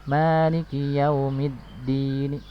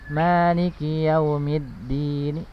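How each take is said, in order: The two takes are said the same way.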